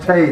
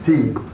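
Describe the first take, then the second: First: The letter is said with an 'ay' vowel. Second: The letter is said with an 'ee' vowel. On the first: The speaker calls it right. "it's pronounced tay" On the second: The speaker calls it wrong. "not T"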